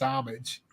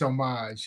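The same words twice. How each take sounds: First: It is said in a plain, everyday English way. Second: It is said in a posh, French-like way. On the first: The speaker is an ordinary person. "If you're a regular guy, it's homage" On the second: The speaker is being fancy or pretentious. "if you're hoity-toity, it's homage"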